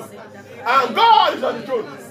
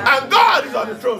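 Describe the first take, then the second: First: Stretched slow, still loud and high; slow loud declaration; slow drawn-out proclamation. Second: Loud, high shout of praise; full-voiced preacher's shout. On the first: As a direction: draw each word out, proclaiming. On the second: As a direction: shout it out over the room. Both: Shown as a demonstration. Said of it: "do you see how I was shouting?".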